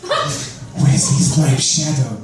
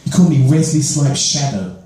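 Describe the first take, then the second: First: Slow, laughing echo of the nickname; laughing repeat. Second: Said in the usual way. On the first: Real, not acted. Repeating the school nickname to the crowd, laughing. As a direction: savour the name through a laugh. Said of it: "He called me Wesley Snipes' Shadow". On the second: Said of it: "Wesley Snipes' Shadow".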